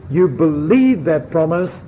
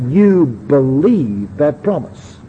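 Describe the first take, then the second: First: Believe lifted and held with a rising tune; in You believe that promise let believe rise and carry the weight; stress on believe. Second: Slow, with believe leaned on as the key word; stress on believe. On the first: Preacher repeating the quote to his hearers, believe stressed. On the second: Preacher reading the quote to the congregation, stressing believe. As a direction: read it slowly and lean on believe in You believe that promise. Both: Shown as a demonstration. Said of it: "she emphasises the second word I shall read".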